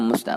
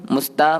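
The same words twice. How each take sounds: First: "musta" with a misplaced, off-target "ta"; faulty heavy "ta" in "musta"; wrong ta. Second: "musta" with a light, clean "ta"; crisp Arabic "ta" in "musta"; correct light ta. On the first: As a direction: say "musta" with the "ta" mispronounced as a heavier sound. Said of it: "bukan musta". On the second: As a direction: say "musta" keeping the "ta" thin and clear. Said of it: "musta bukan musta". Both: Shown as a demonstration.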